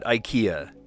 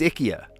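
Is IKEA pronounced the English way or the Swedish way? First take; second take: English; Swedish. First: It is pronounced the usual English way. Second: It is pronounced the way Swedes say it. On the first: "they don't call it IKEA" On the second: "That's how they pronounce it"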